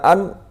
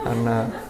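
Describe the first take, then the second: First: The word ends abruptly without its final vowel. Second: The word ends with its final vowel sounded. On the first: The speaker calls it wrong. "jangan wa ma an ya tambahi titik lah" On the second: The speaker calls it right.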